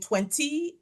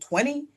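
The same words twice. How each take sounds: First: The middle consonant is a crisp t sound. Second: The middle consonant is a soft d sound. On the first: This is the earlier, more British pronunciation. "my T's started to be pronounced as D's" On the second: This is the later, Americanized pronunciation. "I heard myself saying twenty"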